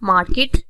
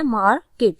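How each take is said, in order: First: Said in the usual way. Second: market in two distinct syllables; teacher showing both syllables of market. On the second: Shown as a demonstration. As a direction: split market in two with a small break. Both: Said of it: "दो syllable आते हैं".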